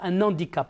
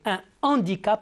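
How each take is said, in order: First: Un runs into handicap with a linking n sound. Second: Un stays apart from handicap, with no n link. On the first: The speaker calls it wrong. "et non pas un handicap" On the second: The speaker calls it right.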